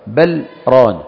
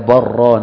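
First: There is a short breathless stop after بل. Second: بل runs straight into ران with no stop. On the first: "ده يسمى سكتة" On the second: "تصل"

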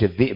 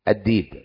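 First: The hamza is pronounced as a glottal stop. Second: The hamza is dropped and replaced by a long i. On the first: "ما نقولش الذئب مثلا" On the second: "نقول الديب"

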